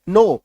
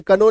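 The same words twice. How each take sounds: First: नो said plainly as no, the K left silent. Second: कनो with the K sounded, the wrong way; wrong pronunciation. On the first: Teacher models the correct word, नो with a silent K. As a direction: say नो with no K sound at all. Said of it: "के का उच्चारण नहीं करना है". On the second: Teacher voices the learners' mistake, कनो with a sounded K. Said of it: "इसको कई लोग कनो कनो बोलते हैं". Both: Shown as a demonstration.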